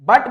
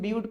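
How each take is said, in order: First: The vowel is a short 'uh' sound. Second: The vowel is a long 'yoo' sound. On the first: The speaker calls it wrong. "बट मत पढ़ देना" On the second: The speaker calls it right. "इसका pronunciation ब्यूट पढ़ा जाता है"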